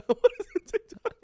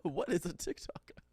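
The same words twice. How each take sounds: First: High, fast giggly question; laughing. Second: Light Australian accent imitation. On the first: Retold or imitated. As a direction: squeal it while laughing. Laughing echo of the quote. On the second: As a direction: ask it like an Australian pop star. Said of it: "In her Australian accent".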